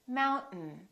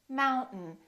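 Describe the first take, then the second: Both takes have the same delivery.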